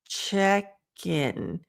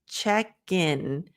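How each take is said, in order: The two takes are said the same way.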